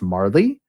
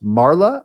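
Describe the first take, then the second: First: The name ends with an added 'ee' sound. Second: The name ends with an added 'ah' sound. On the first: "I've heard it pronounced Marley" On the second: "I've heard it pronounced Marla"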